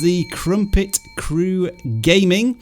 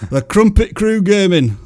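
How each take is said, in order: First: It is said in the speaker's plain accent. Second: It is said in a Yorkshire accent.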